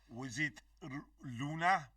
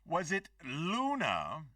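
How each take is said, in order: First: It is said with a heavier Russian accent. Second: It is said in a plain, unaccented voice.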